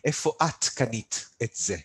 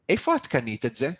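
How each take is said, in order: First: It is said slowly and carefully, word by word. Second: It is said smoothly at a natural conversational pace.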